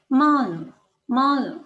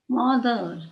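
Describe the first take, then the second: First: "mother" ending in an open "uh", no R; British, silent R. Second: "mother" with the final R clearly sounded; R pronounced. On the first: Teacher showing learners British English, "mother" without final R. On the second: Teacher contrasting with British English, "mother" with final R. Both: Shown as a demonstration. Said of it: "British English में".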